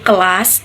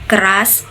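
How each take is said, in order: First: The middle consonant is an L. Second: The middle consonant is a flapped R. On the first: A young child's pronunciation. "they say L" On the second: The standard adult pronunciation. "when say R"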